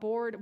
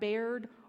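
First: The word sounds like bored. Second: The word sounds like bared. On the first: "not bared or bored" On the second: "not bared or bored"

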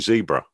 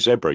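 First: It is said with an American pronunciation. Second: It is said with a British pronunciation. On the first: "You say zebra" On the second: "We say zebra"

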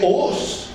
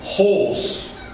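First: The h at the start is dropped. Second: The h at the start is sounded. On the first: The speaker calls it wrong. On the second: The speaker calls it right.

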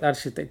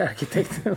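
First: The middle k is softened to a tj-like sound. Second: The middle k is a hard k sound. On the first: This is the form learned as a rule of Swedish. "Jag har alltid sagt arkitekt" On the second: This is the form many use, and it sounds more English. "man i Stockholm och många säger arkitekt"

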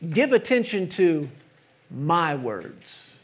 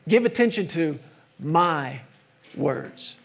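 First: The stress is on "words". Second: The stress is on "my".

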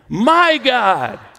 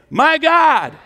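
First: It is said with deep, sincere feeling. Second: It is said plainly, without special feeling.

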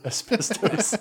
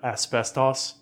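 First: It is said with an American pronunciation. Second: It is said with a British pronunciation. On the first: "instead of asbestos" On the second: "I much prefer saying the word asbestos"

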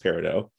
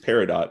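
First: The final T sound is silent. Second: The final T sound is pronounced. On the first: This is the name of the real stone. "The like silent T at the end" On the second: This is the name of the show's character. "in the show, her name is Peridot"

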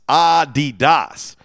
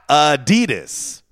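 First: The stress is on the first syllable. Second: The stress is on the second syllable.

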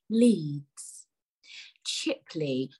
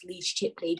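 First: It is said slowly with a pause between words. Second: The two words run together without a pause.

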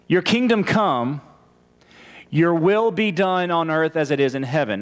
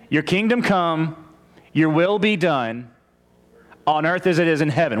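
First: It is said joined, without gaps. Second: It is said with gaps between phrases.

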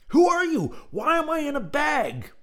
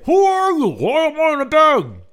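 First: It is said calmly, not yelled. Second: It is yelled loudly.

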